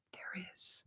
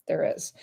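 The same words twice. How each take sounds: First: Hushed whisper, like a secret; whispered reveal. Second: Said in the usual way. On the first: Shown as a demonstration. Teasing viewers about nonverbal cues online, in a secret whisper. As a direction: let the answer slip out in a whisper. Teasing her research finding.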